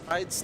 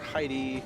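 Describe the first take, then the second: First: The name ends with an s sound. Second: The name ends with an ee sound. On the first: "I'm pretty sure it's Hyde's" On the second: "I've heard people pronounce it Heidi"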